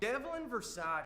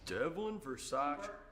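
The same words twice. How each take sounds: First: It is said in a normal voice. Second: It is said in a deeper voice.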